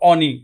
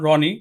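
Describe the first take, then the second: First: The word begins without any r sound. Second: The word begins with an r sound. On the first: "সে বলে অনি ... রর উচ্চারণটা পায় না" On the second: "নাম রনি"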